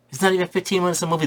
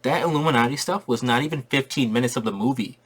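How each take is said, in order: First: "not" hit higher, rushed and fast; fast, higher, emphatic restatement of the complaint; emphatic repeat. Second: Said in the usual way. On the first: Real, not acted. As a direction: hammer the point, quicker and higher. Repeats his complaint twice.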